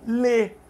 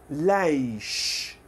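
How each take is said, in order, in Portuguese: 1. É falada sem o som final de sh. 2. Tem uma vogal libanesa, terminando em som de sh. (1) "O egípcio fala só lê, não tem o chiado" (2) "libanês gosta muito de falar leish"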